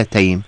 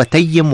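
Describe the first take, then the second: First: Taym, with a silent-vowel ya; unvowelled ya in Taym. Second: Tayyim, geminated ya; doubled ya in Tayyim. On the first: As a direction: say Taym as one syllable. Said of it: "بتسكين ال". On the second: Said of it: "بتشديد الياء". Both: Shown as a demonstration.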